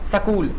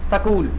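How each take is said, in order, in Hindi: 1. एक छोटा स्वर s और k को अलग करता है। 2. एक छोटा स्वर s और k को अलग करता है।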